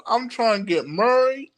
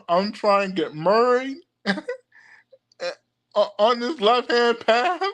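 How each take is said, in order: First: Said in the usual way. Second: Fake Saint Louis accent. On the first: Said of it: "I'm gonna say it in my fake country a". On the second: Shown as a demonstration. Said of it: "my fake Saint Louis, Missouri accent".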